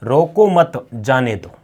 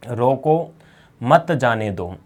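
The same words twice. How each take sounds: First: रोको मत as one unit, break, then जाने दो; slow, falling read split after मत; pause after मत. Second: रोको alone, clear break, then मत जाने दो; pause after रोको. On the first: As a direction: join रोको to मत, set जाने दो apart. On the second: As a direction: stop after रोको, run मत जाने दो together. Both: Shown as a demonstration. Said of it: "दोनों में अलग-अलग है ना".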